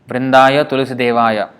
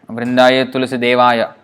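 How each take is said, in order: No difference in how they are said.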